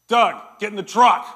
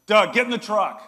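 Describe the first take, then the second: First: Loud barked command across the yard; yelled order. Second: Loud barked command again; yelled order. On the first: Outfitter yelling at Doug from his truck. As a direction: shout it from the truck window. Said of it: "he yells over and he goes". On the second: Outfitter summoning Doug to the truck a second time. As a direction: call him over with a sharp shout. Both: Retold or imitated.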